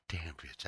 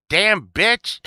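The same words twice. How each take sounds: First: Said in the usual way. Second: High, loud catchphrase shout; mock outburst. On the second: Driver who got cut off in traffic, mock outburst. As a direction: yell it playfully at a passing driver.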